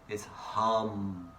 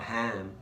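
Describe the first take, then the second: First: It is said with the Sanskrit short a vowel. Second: It is said with an Australian a vowel. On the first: The speaker calls it right. "H A M, hum. That's the Sanskrit pronunciation" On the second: The speaker calls it wrong. "it's not ham, Australian pronunciation"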